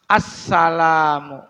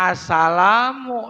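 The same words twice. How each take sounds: First: Assalamu with the s held long; doubled s. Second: Assalamu with a short single s; wrong single s. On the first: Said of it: "tasdidnya ada satu, yaitu di atas huruf sin". (sin ditekan panjang pada "Assalamu") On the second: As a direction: rush the s in assalamu. (sin tidak ditasydid pada "assalamu") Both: Shown as a demonstration.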